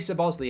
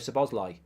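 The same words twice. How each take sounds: First: The name ends without a 'lie' sound. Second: The name ends with a 'lie' sound. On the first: The speaker calls it wrong. "it's wrong" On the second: The speaker calls it right. "apparently it's lie at the end"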